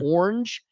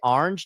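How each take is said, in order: First: It is said in a non-New York accent. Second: It is said in a New York accent. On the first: New Yorkers consider this the improper form. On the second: New Yorkers consider this the proper form. "You're supposed to say"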